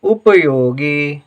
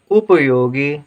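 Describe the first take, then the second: No difference in how they are said.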